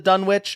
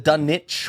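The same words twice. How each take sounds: First: The W in the middle is pronounced. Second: The W in the middle is silent. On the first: "everyone in this movie gives it the W" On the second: "it is the silent W sound"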